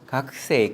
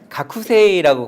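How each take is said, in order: First: The ku syllable is barely pronounced. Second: The ku syllable is pronounced fully. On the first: The speaker calls it right. "쿠를 아주 약하게 발음합니다" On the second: The speaker calls it wrong. "가쿠세이라고 발음하지 않고"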